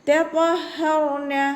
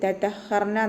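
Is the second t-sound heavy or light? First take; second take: heavy; light. First: The second t-sound is heavy and full. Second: Both t-sounds are light and thin. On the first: The speaker calls it right. "അതുപോലെ ഊതുക" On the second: The speaker calls it wrong. "രണ്ടും ത എന്നുള്ള അക്ഷരത്തിൻ്റെ സൗണ്ടായി പോവരുത്, തതഹർന എന്നായി പോവരുത്"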